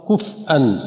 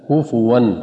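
First: The word has a glottal stop in it. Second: The word has a w sound, no glottal stop. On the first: The speaker calls it wrong. "خطأ كفأ" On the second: The speaker calls it right. "تضم الفاء كفوا، والواو ليست مهموزة"

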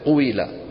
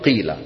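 First: The vowel starts as 'u' and glides to 'i'. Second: The vowel is a plain 'i' with no 'w'. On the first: Some tribes eased the heavy form this way. "يعني يبدو بضمة وينهوها بإيش؟ بكثرة" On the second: The first vowel was later dropped entirely. "حذفوها"

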